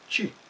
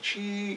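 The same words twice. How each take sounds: First: The tone falls sharply and is short. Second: The tone does not fall sharply. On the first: It means energy or breath. "se prononce avec un ton descendant et un peu sec" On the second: It means the number seven. "c'est le chiffre sept"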